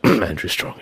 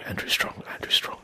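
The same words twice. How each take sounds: First: Said in the usual way. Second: Whispering the name while getting into character; whispered warm-up. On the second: Shown as a demonstration. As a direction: murmur the name to yourself in a whisper. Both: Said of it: "let's get into character".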